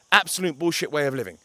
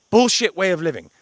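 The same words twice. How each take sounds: First: Said in the usual way. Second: Louder, higher blunt dismissal; raised voice, disgusted; loud scorn. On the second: Real, not acted. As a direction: spit out the verdict with contempt.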